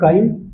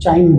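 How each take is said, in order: First: The word begins with a k sound. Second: The word begins with a ch sound. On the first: "कहीं पे काइम बोलते हैं" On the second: "कहीं पे चाइम बोलते हैं"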